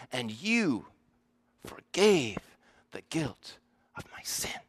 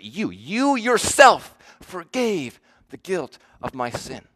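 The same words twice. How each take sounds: First: Gently, trailing into a whisper on "the guilt of my sin"; soft hush. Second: "You, you yourself" punched louder and slowed, leaning hard on "you"; emphatic you. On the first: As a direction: let "forgave" fall softly, then barely breathe "the guilt of my sin". Soft contrast before the emphatic version. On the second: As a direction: hammer "You, you yourself", then ease off on "my sin". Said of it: "it's emphatic there the way he says it". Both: Shown as a demonstration.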